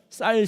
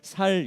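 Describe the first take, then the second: First: The first consonant is a tense s. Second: The first consonant is a plain s. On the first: The speaker calls it right. "쌀 시키면" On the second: The speaker calls it wrong. "잘 못해서 살 이러는"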